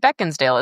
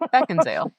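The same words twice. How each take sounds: First: A d sound is heard inside the name. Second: No d sound is heard inside the name. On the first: The speaker calls it wrong. "Isn't there a D?" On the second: The speaker calls it right. "I have pronounced that wrong for a long time"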